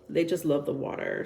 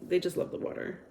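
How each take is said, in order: First: Said in the usual way. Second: A secretive whispered aside. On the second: Shown as a demonstration. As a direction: repeat it in a soft whisper. Whispered repeat of the same line.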